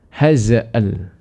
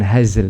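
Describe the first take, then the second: First: An extra vowel is inserted before the final l. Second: The final l follows directly without a vowel. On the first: The speaker calls it wrong. "seperti hazal begitu" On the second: The speaker calls it right. "bukan hazl tapi hazal"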